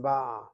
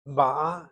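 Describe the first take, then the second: First: Ba'a with the weight on BA; first-syllable stress. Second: Ba'a with the weight on the final A; second-syllable stress. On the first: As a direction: stress the start, BAA-a, in ba'a. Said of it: "with the accent on the first syllable". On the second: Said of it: "accent is on the second syllable". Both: Shown as a demonstration.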